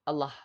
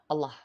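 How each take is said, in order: Both takes have the same delivery.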